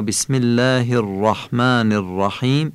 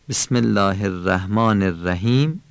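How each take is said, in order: First: "الرحمن الرحیم" as "er-rahmææn er-rahiim", full r; heavy R. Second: "الرحمن الرحیم" as "er-ræhmaan er-ræhim"; thin R. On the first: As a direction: say الرحمن الرحیم with thick r and dark "a" after it. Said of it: "این درشت". («الرحمن الرحیم» با رِ درشت و تفخیم) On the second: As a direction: say الرحمن الرحیم with light r and front "æ" after it. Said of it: "این نازک". («الرحمن الرحیم» با رِ نازک) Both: Shown as a demonstration.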